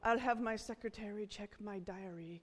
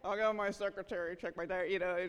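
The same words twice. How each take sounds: First: It is said sincerely, in a posh manner. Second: It is said in a mocking, sarcastic manner. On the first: The offer to check is genuine. "the posh people are always like" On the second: The idea of having a secretary is being mocked. "real sarcastic"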